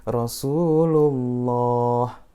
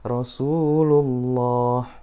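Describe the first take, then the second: First: The L sound is thick and heavy. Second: The L sound is thick and heavy.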